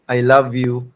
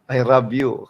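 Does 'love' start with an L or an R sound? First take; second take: L; R. First: The word love starts with a clear L sound. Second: The word love starts with an R-like sound. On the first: "imbis na" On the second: "Kasi L nila at R, nahihirapan silang uh, i-pronounce"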